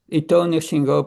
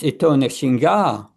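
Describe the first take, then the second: First: The second word ends with an 'o' sound. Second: The second word ends with an 'a' sound. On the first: The speaker calls it wrong. "don't sing Ito Nrsimho, Parato Nrsimho. It's wrong" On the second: The speaker calls it right. "pronouncing A when it's A"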